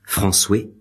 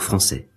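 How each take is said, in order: First: The last syllable ends in a 'weh' sound. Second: The last syllable ends in an 'eh' sound. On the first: This is how it was said in Ronsard's time. "Il se prononce « oué », ce qui donne « françoué »" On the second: This is how it is said today. "pour français"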